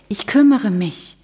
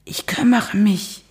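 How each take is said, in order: First: Said in the usual way. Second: Breathy whisper. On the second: Acted. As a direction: hush it out urgently. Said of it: "flüsterte Luca".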